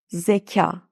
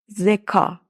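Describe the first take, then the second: First: The k and a are soft and fronted. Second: The k and a are hard and back. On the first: The speaker calls it right. "A'yı ince okuyorum" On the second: The speaker calls it wrong. "Eğer A'nın üstünde şapka olmasaydı telaffuzu şöyle olurdu"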